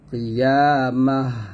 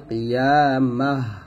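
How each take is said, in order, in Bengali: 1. শব্দটি নীরব 'h' ধ্বনি দিয়ে শেষ হয়। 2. শব্দটি নীরব 'h' ধ্বনি দিয়ে শেষ হয়।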